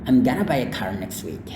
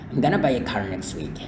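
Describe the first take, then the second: The two takes are said the same way.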